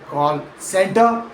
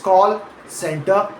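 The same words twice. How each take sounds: First: The stress falls on the second word. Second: The stress falls on the first word. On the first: The speaker calls it wrong. "not call center" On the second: The speaker calls it right. "stressed as call center"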